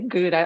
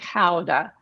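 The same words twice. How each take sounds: First: Gouda is said with an English pronunciation. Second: Gouda is said with a Dutch pronunciation. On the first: This is how it will be said tonight. "I think I'm gonna say Gouda" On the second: This is how it is said in Holland. "if you're in Holland, you're gonna say Gouda"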